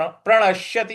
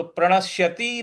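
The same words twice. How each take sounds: First: प्रणश्यति with pressed श and brief ति; short final vowel. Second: प्रणश्यति with final ति dragged into a long ती; wrong long ending. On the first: Teacher showing the correct form, प्रणश्यति ending in short ति. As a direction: keep the last i of प्रणश्यति short. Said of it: "इस प्रकार से बोलना है इसको". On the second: Teacher showing the mistake, प्रणश्यति ending in long ती. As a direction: stretch the last vowel of प्रणश्यति. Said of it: "नहीं बोलना है". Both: Shown as a demonstration.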